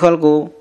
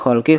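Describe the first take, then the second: First: The word ends with a u vowel. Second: The word ends with an i vowel. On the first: The speaker calls it wrong. "Mana yang betul?" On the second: The speaker calls it right. "kita baca khalqi karena ala huruf jir"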